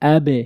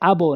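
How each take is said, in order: First: The final vowel is unrounded, like e. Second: The final vowel is rounded, like o. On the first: The speaker calls it right. "কিন্তু আবে" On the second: The speaker calls it wrong. "আবো না"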